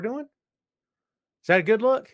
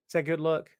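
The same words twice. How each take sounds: First: High, loud, drawn-out sarcastic question; slow sneering rhetorical question; mocking question. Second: Said in the usual way. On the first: Real, not acted. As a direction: stretch it out slowly to mock them. Rhetorical jab at the company.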